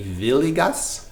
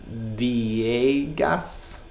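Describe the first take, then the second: First: The name is pronounced the Italian way. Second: The name is pronounced the Spanish way. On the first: "in Italian, it would be" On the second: "So in Spanish, I think it'd be"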